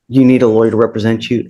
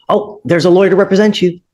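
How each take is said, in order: First: Said in the usual way. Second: Much higher, sing-song mock of wishful thinking; mocking naive hope. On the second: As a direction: mimic someone expecting a lawyer to appear by magic. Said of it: "poof, it doesn't magically appear".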